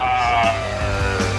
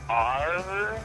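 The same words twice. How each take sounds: First: It is said loudly with gusto. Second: It is said weakly and tentatively.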